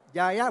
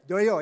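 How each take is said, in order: First: Both vowels are open a sounds. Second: Both vowels are rounded o sounds. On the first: This is the Sundanese form of the name. "Jaya bahasa Sunda" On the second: This is the Javanese form of the name. "kalau Jaya bahasa Jawa. Joyo ya"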